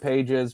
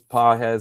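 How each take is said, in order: First: The name is said in an English way. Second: The name is said in a Spanish way. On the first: The player has not earned the proper pronunciation. The speaker calls it wrong. "I call him Pages because he was so bad in the postseason that he doesn't deserve to have his name pronounced right" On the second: This is the name's proper pronunciation. The speaker calls it right. "I know it's Pages"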